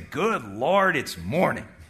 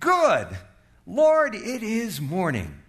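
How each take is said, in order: First: It sounds dismayed and groaning about the morning. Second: It sounds cheerful and thankful for the morning.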